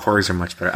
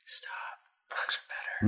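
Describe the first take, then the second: First: Said in the usual way. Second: Hushed, voiceless whisper. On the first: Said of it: "I don't know why I had to whisper that". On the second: Real, not acted. Podcast host sneaks in a defence of Porgs, whispered. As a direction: whisper it under your breath. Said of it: "I had to whisper that".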